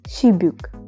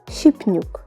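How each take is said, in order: First: No n is added; b links into the vowel. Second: A p sound comes before an added n. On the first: "If we didn't know all these rules, we would uh, pronounce it as shibuk" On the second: "So it'll be something like shipnuk. But of course it is incorrect"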